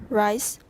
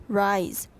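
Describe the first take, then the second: Both takes have the same delivery.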